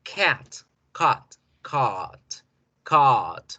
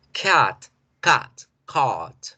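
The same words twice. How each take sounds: First: "Cat, cat, cart" with the long A in "cart"; short "cat", long held "cart"; three vowels contrasted. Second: "Cat, cat, cart" with the last A held long; three vowels contrasted. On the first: Teacher repeating the contrast of cat and cart. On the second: Teacher contrasting cat, cut and cart. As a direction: keep "cat" short, stretch "cart". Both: Shown as a demonstration. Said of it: "en la última yo alargo la vocal".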